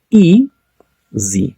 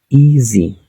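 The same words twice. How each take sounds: First: "Easy" split in two, first syllable high, then a pause. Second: Said in the usual way. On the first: Shown as a demonstration. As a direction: break "Easy" into ea... sy, drawn out. ("Easy" separado en dos sílabas, con pausa) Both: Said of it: "Aquí tenemos dos sílabas".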